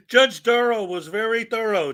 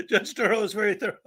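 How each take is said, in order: First: Said in the usual way. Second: Slurred, tongue held between fingers; holding tongue with fingers. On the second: Shown as a demonstration. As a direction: say it while pinching your tongue. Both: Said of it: "tried holding your tongue just now".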